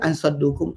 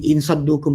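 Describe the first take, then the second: First: The first word is said with an a vowel. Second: The first word is said with an i vowel. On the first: "dengan fathah" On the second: "bikasr hamzah"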